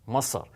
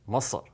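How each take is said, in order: First: The vowel is deep and pulled back. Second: The same.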